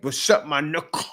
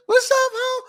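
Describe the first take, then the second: First: Said in the usual way. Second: Put-on squealed very high, like a girl spotting her friend; girls greeting each other. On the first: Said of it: "That's a term of endearment". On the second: Imitating girls greeting each other in a very high squeal. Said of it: "A lot of girls talk like this".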